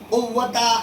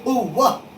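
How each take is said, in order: First: The word ends with a 'ta' sound. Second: The word ends with a soft 'h' sound. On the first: The speaker calls it wrong. "कुव्वता ऐसा नहीं पढ़ेंगे" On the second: The speaker calls it right. "बल्कि कुव्वह"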